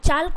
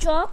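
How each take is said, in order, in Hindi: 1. L की ध्वनि साफ़ तौर पर बोली जाती है। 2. L की ध्वनि बोली नहीं जाती। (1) "अगर एल अगर पढ़ोगे" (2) "एल साइलेंट करना है"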